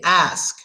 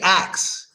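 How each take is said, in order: First: The word ends with an s then k sound. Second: The word ends with a k then s sound. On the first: "It's supposed to be pronounced ask, just like you see it" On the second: "we pronounce it ax. We say ax"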